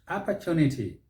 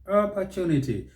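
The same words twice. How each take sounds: First: It is said with an American accent. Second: It is said with an American accent.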